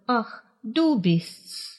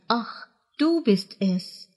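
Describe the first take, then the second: First: The word 'es' is shortened to an 's' sound. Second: The word 'es' is said as a full syllable.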